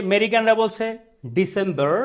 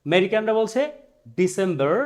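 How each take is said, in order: No difference in how they are said.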